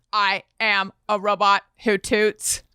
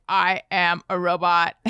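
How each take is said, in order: First: Flat robot voice; lightly imitated kid robot. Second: Flat, lower robot voice; lightly imitated robot. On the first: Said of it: "he's like". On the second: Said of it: "Elliot has started doing robot voice".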